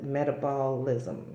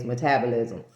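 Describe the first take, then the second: First: Metabolism drawn out slowly as "meta-BALL-ism"; deliberate odd pronunciation. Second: Said in the usual way. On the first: Shown as a demonstration. Vlogger playing with a word she wanted to say that way, metabolism as "meta-BALL-ism". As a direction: stretch metabolism, leaning on a broad "BALL" in the middle. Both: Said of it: "had to say it both ways".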